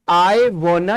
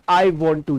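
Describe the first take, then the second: First: The two words merge into one short word. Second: The two words are said fully and separately. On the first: "वांट टू को shortcut में आप ऐसे ही बोल सकते हैं" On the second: "वांट टू"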